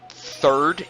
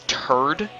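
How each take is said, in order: First: The word starts with a soft th sound. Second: The word starts with a hard t sound. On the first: "they don't say third" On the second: "it's turd"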